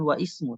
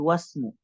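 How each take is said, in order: First: The i at the word start is pronounced. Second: The i is dropped, linking straight into s. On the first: The speaker calls it wrong. "bukan wa ismu" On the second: The speaker calls it right. "tapi wasmu karena dia berada di tengah"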